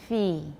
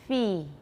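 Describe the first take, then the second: No difference in how they are said.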